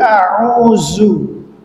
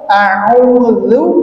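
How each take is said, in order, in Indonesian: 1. Huruf tengah bunyinya seperti z yang berdengung. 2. Huruf tengah bunyinya seperti th pada 'this'. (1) "ketika lidahnya kita turunin ke bawah dia jadi a'udzu" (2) "kalau misalkan lidahnya kita keluarkan maka akan keluar a'udzu"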